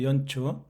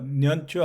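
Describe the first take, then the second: First: The word begins with a vowel sound. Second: The word begins with an n sound. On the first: The speaker calls it right. "니은이 탈락하면 연이 되죠" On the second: The speaker calls it wrong. "년초 아니고"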